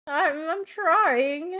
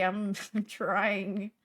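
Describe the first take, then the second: First: Mock whine. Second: Said in the usual way. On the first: Shown as a demonstration.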